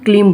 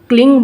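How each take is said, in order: First: The word ends with an m sound. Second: The word ends with an ng sound. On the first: "म लगाने को बोलते हैं" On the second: "ग लगाने के लिए बोलते हैं"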